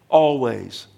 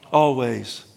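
Both takes have the same delivery.

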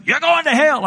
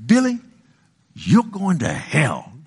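First: High-pitched call from a car window; mock taunting neighbor. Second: Mock scolding neighbor. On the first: Neighbor kids hanging out the car window, high mock taunt. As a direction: pitch it way up, imitating a taunting kid. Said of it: "they would hang out the window". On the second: Neighbor condemning the boy next door, slow mock scolding. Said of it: "my next door neighbors".

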